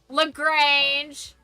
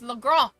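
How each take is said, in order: First: It is said with an anglicized, local pronunciation. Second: It is said with a French pronunciation. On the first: This is how the locals say it. The speaker calls it wrong. "nobody pronounces it properly" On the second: This is the original French name. The speaker calls it right. "It's Le Grand"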